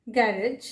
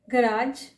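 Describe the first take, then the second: First: "गैरेज" as GA-rij; weight on the first syllable of "गैरेज"; alternative pronunciation. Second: "गराज" with long aa, guh-RAAJ; weight on the second syllable of "गराज"; alternative pronunciation. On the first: Teacher showing the other accepted "गैरेज", said GA-rij. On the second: Teacher showing one accepted "गराज", said guh-RAAJ. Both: Shown as a demonstration. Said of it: "सारे ही correct प्रोनंसिएशंस".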